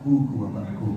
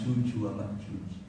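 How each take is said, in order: First: The consonants are said with a g sound. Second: The consonants are said with a j sound.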